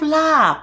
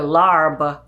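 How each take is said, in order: First: The word is said without an r sound. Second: The word is said with an r sound. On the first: The speaker calls it right. "there's no R in lab and it ends on the B" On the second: The speaker calls it wrong. "you probably pronounce it differently"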